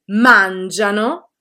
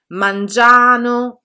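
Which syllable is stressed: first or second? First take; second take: first; second. First: The stress falls on the first syllable. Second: The stress falls on the second syllable. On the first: The speaker calls it right. "sono corretti" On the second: The speaker calls it wrong. "sono sbagliati"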